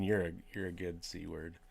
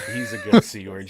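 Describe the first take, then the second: First: Said in the usual way. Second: A sudden high, loud jokey shout; mock Aussie cheer. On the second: Shown as a demonstration. Co-host ribbing the host with a loud jokey line. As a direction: bellow the line like a cheeky Aussie.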